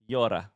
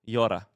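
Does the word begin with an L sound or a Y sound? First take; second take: Y sound; Y sound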